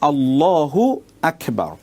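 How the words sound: 'Hu' stays with Allah, split before Akbar. The phrase keeps its proper meaning. The speaker calls it right. "মূল উচ্চারণটা হবে আল্লাহু আকবার। আল্লাহু একটি শব্দ, আকবার একটি শব্দ।"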